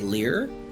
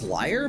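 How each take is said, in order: First: The vowel sounds like 'ee', rhyming with fear. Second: The vowel sounds like 'eye', rhyming with fire. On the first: "some people say lear" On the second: "I believe the pronunciation is liar"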